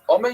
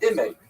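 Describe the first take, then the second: First: The first vowel is a full open a. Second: The first vowel is short and reduced. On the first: The speaker calls it right. "you don't say a chametz under the aleph" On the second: The speaker calls it wrong. "you say a shva under the aleph"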